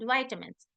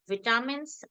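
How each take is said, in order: First: It is said with an American pronunciation. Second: It is said with a British pronunciation. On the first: "in American pronunciation" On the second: "In English pronunciation"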